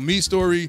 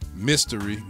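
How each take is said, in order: First: It sounds like 'me' followed by 'story'. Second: It sounds like the word mystery. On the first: The speaker calls it right. "it is pronounced me story" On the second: The speaker calls it wrong. "I've been saying mystery"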